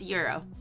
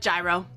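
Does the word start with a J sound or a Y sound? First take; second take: Y sound; J sound. First: The word starts with a Y sound. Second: The word starts with a J sound. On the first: The speaker calls it right. "It's euro, but there's like a bit of an accent" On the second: The speaker calls it wrong. "I thought it was gyro"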